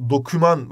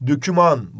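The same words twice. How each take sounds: First: Doküman with a plain o in the first syllable; correct pronunciation. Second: Döküman with ö in the first syllable; wrong pronunciation. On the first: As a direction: say doküman with o, not ö. (doğru: doküman, o ile) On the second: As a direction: say döküman, rounded front ö. (yanlış: döküman, ö ile) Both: Shown as a demonstration. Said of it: "Ama doküman diye yazılıyor".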